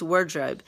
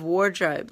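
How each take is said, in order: First: "wardrobe" said as "word-robe"; coined word pun. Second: Said in the usual way. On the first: Shown as a demonstration. Explaining the author's pun to listeners, "wardrobe" said as "word-robe". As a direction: say "wardrobe" with "word" as its first half, rhyming with bird. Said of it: "she says wardrobe". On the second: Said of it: "Instead of wardrobe, like a closet".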